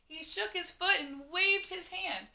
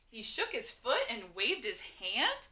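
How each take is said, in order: First: It is said loudly with lots of energy. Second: The voice rises a little like a question. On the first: "automatically just raise their voice a little bit and they're saying it with oomph" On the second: "when I said it as a question"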